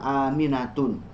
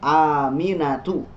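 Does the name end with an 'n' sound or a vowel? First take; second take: n sound; vowel. First: The name ends with an added final n sound. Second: The name ends on a bare vowel, no final n. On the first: The speaker calls it wrong. "bukan Aminatun" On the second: The speaker calls it right. "Nama istrinya adalah Aminatu"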